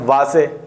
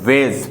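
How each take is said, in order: First: The word is said as two syllables. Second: The word is said as one syllable. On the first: It is read letter by letter, Hindi style. The speaker calls it wrong. "लेकिन ये हिंदी वाली English हो जाएगी" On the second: It follows the English spelling rule. The speaker calls it right. "वेज पढ़ेंगे इसे"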